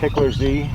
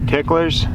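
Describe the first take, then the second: First: The word ends with a buzzing Z sound. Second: The word ends with a hissing S sound. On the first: The speaker calls it wrong. "I said the Z at the end, like just pronounced it as a Z" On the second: The speaker calls it right. "You're supposed to pronounce the Z as an S"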